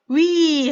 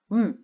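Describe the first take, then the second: First: The vowel glides from one quality to another. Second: The vowel keeps one quality from start to end. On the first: The speaker calls it wrong. "위 하면은 이미 이중모음 발음이 돼버리니까 틀린 발음이 됩니다" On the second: The speaker calls it right. "처음부터 끝까지 발음이 같아야 돼요"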